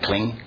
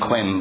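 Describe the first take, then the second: First: The word ends with an ng sound. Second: The word ends with an m sound. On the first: The speaker calls it right. "You say kling, like holding on" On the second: The speaker calls it wrong. "it's written klim, but you don't say that"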